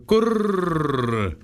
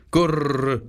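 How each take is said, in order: First: „gurr." cooed higher and drawn out, sinking; long falling pigeon coo. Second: Short cooing „Gurr" like a wood pigeon. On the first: Wood pigeons closing their tale to Gerda, a long falling coo. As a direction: let the last „gurr." slide slowly down. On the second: Wood pigeons ending their tale to Gerda, cooing. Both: Acted. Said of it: "Da sagten die Waldtauben".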